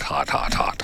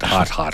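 First: Hot, hot, hot fades to a whisper; trailing whisper. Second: Said in the usual way. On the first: Pretend. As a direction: let each hot fade out breathless. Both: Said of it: "The Florida version of this is".

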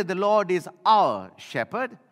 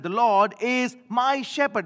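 First: "our" lifted and stressed, slow and steady. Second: "my" punched high and loud, then falling; stress on my. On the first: Preacher showing the congregation a wrong wording, stressing "our". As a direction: lean on "our" as the version David never said. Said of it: "He did not say". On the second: Preacher giving David's true words, punching "my". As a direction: hit "my" hard, it is the point. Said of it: "He said". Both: Shown as a demonstration.

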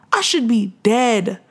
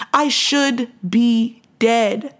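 First: Slow, weighty statement, falling at the end; slow emphatic. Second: Very slow, each word stretched, rising at the end; drawn-out disbelief. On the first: To her listeners about surviving the crash, slow and weighty. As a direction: let each word land slowly. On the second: To her listeners, marvelling she survived, very slow and stretched. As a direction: stretch it out in wonder. Testimony, repeating for emphasis. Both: Real, not acted.

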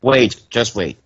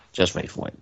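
First: Said in the usual way. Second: Breathy whisper, teasing the surprise. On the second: Real, not acted. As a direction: drop to a secret whisper. Teasing the others to hold on.

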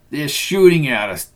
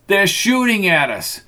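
First: Yelling. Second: Shouted higher, in panic; frantic high yell. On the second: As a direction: cry it out, pitch climbing. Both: A narrator's reading.

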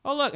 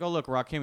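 First: High, eager retold exclamation; excited pointing-out. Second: Said in the usual way. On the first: Husband spots a rap star at the game, excited imitation. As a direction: call attention to it in a raised pitch. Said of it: "and he was like". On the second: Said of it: "And she was like".

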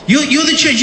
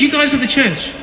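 First: Higher, emphatic mock sermon line; lively preacher voice at a child; preaching to his kids. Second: Put-on higher, pressing the point to the kids; playful preacher refrain; preaching to his kids. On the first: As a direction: drive it home to the kids, playfully. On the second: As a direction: repeat it like a pulpit refrain. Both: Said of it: "Preaching to him".

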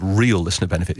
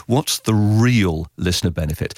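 First: Real leaned on, benefit trailing off; stress on real. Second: Said in the usual way. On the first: Shown as a demonstration. Producer stressing real to his interviewer. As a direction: hit the word real, the rest follows. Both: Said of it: "I keep on emphasizing this word".

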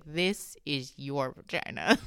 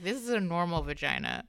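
First: Slow, low, word-by-word verdict; deliberate pronouncement. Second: Said in the usual way. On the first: Retold or imitated. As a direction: imitate her spelling it out slowly. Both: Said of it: "she was like".

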